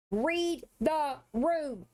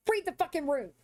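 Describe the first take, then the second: First: "Read the room" drawn out at half speed, each word hit; spelling it out slowly for Holly; slow, pointed order. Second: Said in the usual way. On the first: Real, not acted. Streamer to Holly: "Read the room" dragged out slowly.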